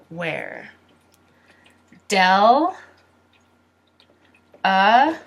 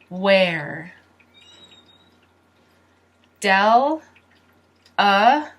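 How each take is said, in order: No difference in how they are said.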